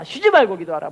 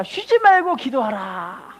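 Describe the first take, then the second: First: Said in the usual way. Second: Very slow, deliberate recitation; slow call and response. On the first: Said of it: "데살로니가전서 오 장". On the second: Shown as a demonstration. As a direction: draw the words out to be repeated. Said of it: "따라합시다".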